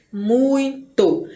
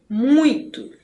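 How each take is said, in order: First: MUITO in two beats, mui, to; split into syllables. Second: Said in the usual way. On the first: Shown as a demonstration. Teacher showing students the syllable division, muito split in two. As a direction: stretch and separate muito as mui, to. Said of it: "Se a gente consegue distinguir".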